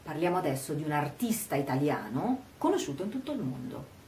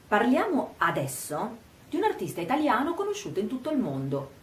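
First: Emphasis falls on 'artista italiano'; the rest is quicker. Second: Emphasis falls on 'parliamo adesso'; the rest is quicker, lower. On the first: The subject is an Italian artist. "mettere l'accento sul fatto che questo artista sia un artista italiano" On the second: The timing of the talk matters. "mettere l'accento sull'aspetto temporale, parliamo adesso"

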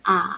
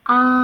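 First: The pitch dips low then rises. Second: The pitch stays high and level. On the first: "ขีดเฉียงลงมาทางด้านขวาค่ะ แล้วก็ขีดเฉียงขึ้นไปทางด้านขวา" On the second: "ไปทางจากด้านซ้ายไปด้านขวาเป็นเส้นตรงค่ะ"

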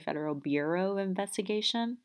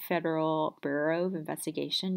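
First: The emphasis falls late in the words. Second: The emphasis falls early in the words. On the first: This is the Baltimore pronunciation. "You'll have an emphasis on the latter part of your word" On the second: This is the standard pronunciation. "instead of"

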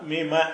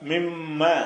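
First: The m sound is short and single. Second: The m sound is held long and doubled. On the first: "சத்து இல்லை என்று சொன்னால் மிம" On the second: "சத்து இருந்தால் மிம்ம"

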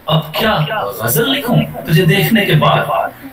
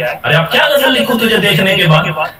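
First: It sounds sarcastic, as if burdened. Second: It sounds angry and annoyed.

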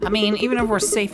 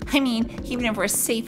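First: It is said in the speaker's ordinary voice. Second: It is said in a put-on character voice.

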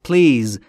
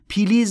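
First: The p and l join with no vowel. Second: An extra vowel sits between p and l. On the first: The speaker calls it right. "بین پی و ال صدایی وجود نداره" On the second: The speaker calls it wrong. "پیلیز نیست عزیز دلم"

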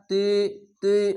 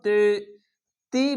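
First: The syllable is pronounced heavy and thick. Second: The syllable is pronounced light and thin. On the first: The speaker calls it right. "মোটা অক্ষর" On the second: The speaker calls it wrong. "বলবেন না"

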